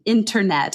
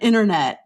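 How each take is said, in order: First: The t after the n is clearly pronounced. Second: The t after the n is dropped. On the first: "T in, in internet" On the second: "instead of internet"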